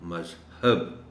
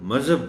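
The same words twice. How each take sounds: First: The 'h' sound is clear and prominent. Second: The 'h' sound is weak and barely heard. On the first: The speaker calls it right. "हे को नुमायां करके पढ़ना है" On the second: The speaker calls it wrong. "मज़हब नहीं कहना"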